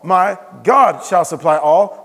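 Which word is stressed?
God. The stress is on "God".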